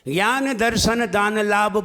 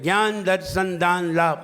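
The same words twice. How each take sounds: First: The words end with their final vowels fully sounded. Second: The words end in bare consonants, final vowels dropped. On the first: The speaker calls it right. "हमने तो पूरा ही बोला है।" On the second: The speaker calls it wrong. "आपने सारे ना को अलंत बना दिया।"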